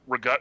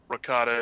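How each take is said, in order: First: It is said in a Philadelphia accent. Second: It is said in a standard accent.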